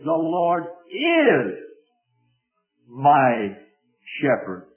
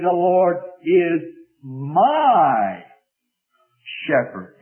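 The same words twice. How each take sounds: First: The stress is on is. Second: The stress is on my.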